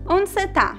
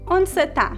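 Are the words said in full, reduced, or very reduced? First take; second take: Reduced; Reduced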